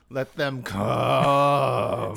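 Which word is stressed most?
come. The vowel in come is stretched long.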